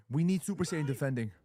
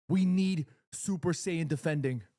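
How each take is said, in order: First: Said in the usual way. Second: "We need Super Saiyan defending" slowed right down, with a pause after "need"; slow emphasis. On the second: Real, not acted. Repeated demand, now slowed for emphasis.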